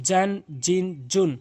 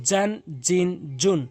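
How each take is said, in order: The two takes are said the same way.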